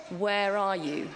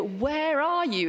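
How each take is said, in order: First: Slow, gentle calling out; loving call. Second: Put-on higher, slow desperate call for a lost child; love and anger mixed, searching; anguished cry. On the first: Acted. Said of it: "he calls out to us". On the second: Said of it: "this is a cry of anguish".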